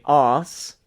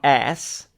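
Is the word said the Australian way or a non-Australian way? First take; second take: Australian; non-Australian. First: It is said with Australian pronunciation. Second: It is said without Australian pronunciation. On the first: "in Australian dialect, you would say arse" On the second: "not ass"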